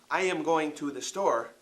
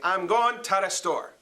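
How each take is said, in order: First: It is said in standard English pronunciation. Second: It is said in the local dialect pronunciation. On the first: The speaker calls it wrong. "We do not say" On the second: The speaker calls it right. "We say"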